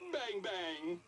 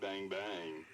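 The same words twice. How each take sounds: First: It is said in a happy tone. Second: It is said in a flirty tone.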